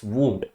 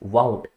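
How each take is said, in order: First: The vowel sounds like 'oo' in moon. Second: The vowel sounds like 'ow' in cow. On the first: The speaker calls it right. "It's वूंड" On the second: The speaker calls it wrong. "That is not pronounced वाउंड"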